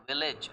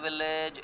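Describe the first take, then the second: First: Village with a short "ij" ending; village, short i in the last syllable; correct pronunciation demo. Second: Village with an "ay" in the ending; village, full e vowel in the second syllable; wrong pronunciation demo. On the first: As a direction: say village softly as VIL-ij. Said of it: "it is village". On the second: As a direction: say village as VIL-layj. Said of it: "this word is not village". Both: Shown as a demonstration.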